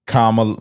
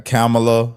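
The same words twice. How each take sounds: First: Kamala said as COMM-uh-luh; first syllable COMM. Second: Kamala said as CAM-uh-luh; first syllable CAM. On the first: Commentator trying out the candidate's name, Kamala as COMM-uh-luh. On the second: Commentator trying another version of the name, Kamala as CAM-uh-luh. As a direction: say Kamala with a short "a" as in cat, stressed first. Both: Shown as a demonstration. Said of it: "however you say it".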